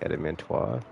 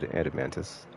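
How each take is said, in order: First: The word ends with an 'oys' sound. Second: The word ends with an 'us' sound. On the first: This is how the speaker always pronounced it. "so I always thought it was like adamantois" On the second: This is how the game says it. "how they said it when they said adamantus"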